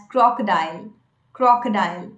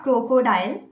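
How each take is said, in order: First: "crocodile" as KROK-uh-dile, weak middle vowel; correct pronunciation. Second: "crocodile" as KRO-ko-dile, two long o sounds; wrong pronunciation. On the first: Coach modelling the word, correct pronunciation. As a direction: say "crocodile" with a short first o and uh after. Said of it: "So we pronounce it as". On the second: Coach showing what to avoid, wrong pronunciation. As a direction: mispronounce "crocodile" with oh in both first syllables. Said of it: "not crocodile". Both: Shown as a demonstration.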